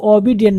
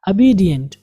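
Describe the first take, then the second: First: ओबीडिएंट with a full "o" at the start; wrong first vowel. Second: ओबीडिएंट starting on a short "uh", as uh-BEE-dient; correct first vowel. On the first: Teacher warns against this reading, full o vowel. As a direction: open ओबीडिएंट on a round "oh". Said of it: "ओबीडिएंट नहीं पढ़ेंगे". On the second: Teacher models the right reading, short uh vowel. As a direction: reduce the start of ओबीडिएंट to a schwa. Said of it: "क्या पढ़ेंगे?". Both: Shown as a demonstration.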